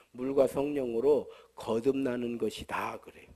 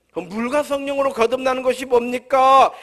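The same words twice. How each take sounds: First: Said in the usual way. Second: 물과 성령으로 거듭나는 것이 뭡니까 asked louder, with 뭡니까 stressed; rising preaching question. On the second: Acted. Preacher asking his congregation, stressing 뭡니까. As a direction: throw 뭡니까 out to the whole congregation. The same phrase turned into a question.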